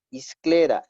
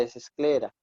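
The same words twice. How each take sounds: First: Isclera with a starting i sound, a bit louder; mock the error isclera, starting with i; isclera, the mistaken form; wrong isclera. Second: Esclera with a clear starting e; esclera, correct form. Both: Shown as a demonstration. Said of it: "no es isclera".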